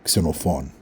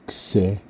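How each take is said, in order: First: The name is said smoothly in one go. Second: The name is split with breaks between syllables. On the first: "saying the name naturally" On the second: "Now breaking it up"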